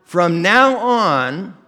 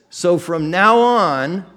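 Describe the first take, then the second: First: Slower still, from now on stretched and louder; deliberate repeat for the congregation; repeated for emphasis. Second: Slow, drawn-out from now on, louder; preacher's weighty reading of now; slow emphatic quote. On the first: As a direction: hammer now home again. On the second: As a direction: lean on now, slowly. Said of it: "is where he says". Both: Shown as a demonstration.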